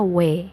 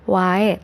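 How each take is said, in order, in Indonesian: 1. Kata ini berakhir dengan vokal 'e' biasa. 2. Kata ini berakhir dengan vokal 'ae' yang terbuka. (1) "tapi jadinya we" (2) "Dibacanya itu bukan wae"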